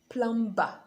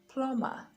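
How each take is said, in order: First: The b sound is pronounced. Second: The b sound is silent. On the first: The speaker calls it wrong. "So it's not plumber" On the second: The speaker calls it right. "the B is silent when it comes after the letter M"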